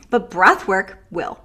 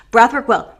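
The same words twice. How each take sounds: First: Said in the usual way. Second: Breath punched louder; emphatic repeat. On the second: Shown as a demonstration. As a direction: hit Breath hard and fall. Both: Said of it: "repeated for emphasis".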